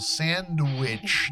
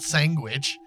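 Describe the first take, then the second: First: The word is said without a G sound. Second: The word is said with a G sound. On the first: The speaker calls it right. "no no sandwich" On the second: The speaker calls it wrong. "there's a G in sandwich"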